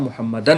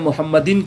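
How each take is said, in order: First: The final syllable has an a vowel. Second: The final syllable has an i vowel. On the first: The speaker calls it right. "सही जो ग्रामर है उसका" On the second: The speaker calls it wrong. "गलत हो जाएगा"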